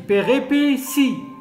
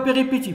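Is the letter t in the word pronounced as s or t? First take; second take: s; t. First: The t is pronounced as an s sound. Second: The t is pronounced as a t sound. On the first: The speaker calls it right. "T se prononce S" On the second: The speaker calls it wrong. "On ne dit pas péripétie"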